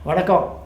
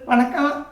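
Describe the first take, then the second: First: It is said in an ordinary adult voice. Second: It is said in a small boy's voice. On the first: "நான் என்னுடைய சாதாரண குரலில் சொல்கிறேன்" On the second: "குட்டி பையன்"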